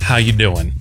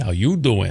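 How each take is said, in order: First: It is said in a normal, sincere voice. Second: It is said in a flirty Joey-style voice.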